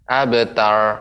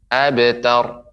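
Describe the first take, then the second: First: The r is tense with no trill. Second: The r has a slight, light trill. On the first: The speaker calls it wrong. "Abtar itu ra-nya tidak bergetar. ... cuman ra-nya kita tegangkan" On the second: The speaker calls it right. "itu ada getaran tapi sedikit getarannya"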